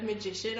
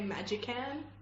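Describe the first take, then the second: First: The word ends with a 'shun' sound. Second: The word ends with a 'can' sound. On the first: The speaker calls it right. "instead of magician" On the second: The speaker calls it wrong. "I used to say magican"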